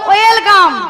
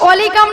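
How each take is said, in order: First: The word begins with a w sound. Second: The word begins with an o vowel. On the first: The speaker calls it right. "বলো ওয়েলকাম" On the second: The speaker calls it wrong. "অলিকাম নয়"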